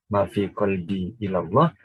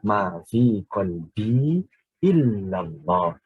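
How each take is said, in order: First: The l sound is short and light. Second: The l sound is held long and stressed. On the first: There is nothing in my heart to God. The speaker calls it wrong. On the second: There is nothing in my heart except God. The speaker calls it right.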